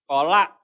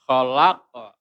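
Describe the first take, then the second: First: "kholak" stopped dead with no bounce; wrong clipped ending. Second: "Khalaqa" with long "la" and bounced q; correct echoing ending. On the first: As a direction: cut off "kholak" abruptly and loudly. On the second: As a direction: stretch "Khalaqa", releasing a short echo after the q. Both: Shown as a demonstration.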